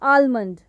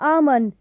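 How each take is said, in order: First: The 'l' sound is clearly pronounced. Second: The 'l' sound is left out. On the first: The speaker calls it wrong. "Not आलमंड" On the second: The speaker calls it right. "How to correctly से it, and that is आमंड"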